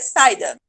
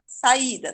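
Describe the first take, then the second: First: The two vowels are run together as one syllable. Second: The two vowels are split into separate syllables. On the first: The speaker calls it wrong. "Se eu fosse falar saída junto" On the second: The speaker calls it right. "A gente fala saída"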